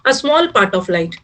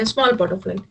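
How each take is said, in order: First: Slow dictation. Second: Said in the usual way. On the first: Shown as a demonstration. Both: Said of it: "पूरा light तो transparent है".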